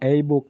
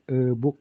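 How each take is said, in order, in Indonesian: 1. 'a' dibaca seperti nama hurufnya. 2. 'a' dibaca seperti vokal pendek. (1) "tapi nggak e-book" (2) "tapi e-book gitu ya"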